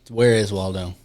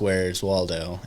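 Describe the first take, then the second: First: Both words 'where is' are said in full. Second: 'Where is' is shortened to one syllable. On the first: The speaker calls it wrong. "I was trying to enunciate my words" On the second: The speaker calls it right. "I should have said where's Waldo"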